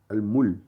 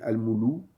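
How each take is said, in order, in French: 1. Le L n'est suivi d'aucune voyelle. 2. Le L est suivi d'une voyelle u. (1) "Ce n'est ni un A, ni un OU, ni un I" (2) "ou bien al-moulou"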